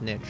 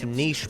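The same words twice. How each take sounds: First: The word ends with a 'ch' sound. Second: The word ends with a 'sh' sound. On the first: The speaker calls it wrong. "Americans saying niche as niche" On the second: The speaker calls it right. "It's niche, people. There's no T there"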